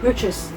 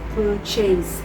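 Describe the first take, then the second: First: It is said with standard English sounds. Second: It is sounded out following its spelling. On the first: The speaker calls it right. "for the words" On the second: The speaker calls it wrong. "mispronunciation such as"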